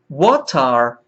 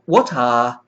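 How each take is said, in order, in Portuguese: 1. Tem um R forte e um T de batida. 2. Tem um T claro e não tem R forte. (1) "Pronunciando a letra R forte como no inglês americano" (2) "Como no inglês britânico"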